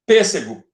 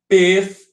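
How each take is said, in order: First: Said in the usual way. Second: Separadinho. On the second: Shown as a demonstration. ("pêssego" bem separadinho, sílaba por sílaba)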